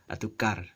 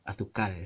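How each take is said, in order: No difference in how they are said.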